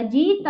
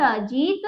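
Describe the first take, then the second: First: जीत split as a long जी, then त; broken into letters. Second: जीत as one whole word with long ई; joined up. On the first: Teacher spells the word out for pupils, broken up. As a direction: read जीत in separate pieces. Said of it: "तोड़कर भी पढ़ा". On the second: Teacher reads the word whole for pupils, joined up. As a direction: blend जीत into a single syllable. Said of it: "जोड़कर भी पढ़ा". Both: Shown as a demonstration.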